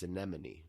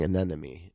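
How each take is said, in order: First: Hushed "anemone", M before N; almost whisper "anemone" the right way, a-NEM-o-nee; correct pronunciation. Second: "anemone" said as "a-NEN-emy"; mistaken pronunciation. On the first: Correcting oneself after the mistake, hushed correct pronunciation. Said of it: "but it's anemone". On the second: Admitting the old mistake to co-host, mistaken pronunciation. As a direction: swap the M in "anemone" for an N. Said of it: "I've been saying anemone". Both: Shown as a demonstration.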